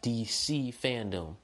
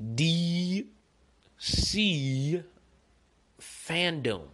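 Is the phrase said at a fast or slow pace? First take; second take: fast; slow. First: The phrase is said at normal speed. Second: The phrase is said slowly and deliberately.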